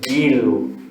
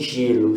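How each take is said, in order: First: The word starts with a hard 'g' sound. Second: The word starts with a soft 'zh' sound. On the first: The speaker calls it right. "seria guilo" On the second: The speaker calls it wrong. "não é como em gelo"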